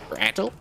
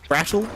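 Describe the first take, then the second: First: The name is said in a put-on foreign accent. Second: The name is said in the speaker's normal accent.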